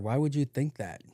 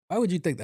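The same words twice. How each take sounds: First: It sounds courteous and gentle. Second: It sounds blunt and confrontational.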